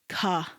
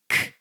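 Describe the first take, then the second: First: The k is followed by an uh vowel. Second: The k is a short, unvoiced burst alone. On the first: The speaker calls it wrong. "A lot of people like to say this sound as k. There's no uh" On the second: The speaker calls it right. "it's k"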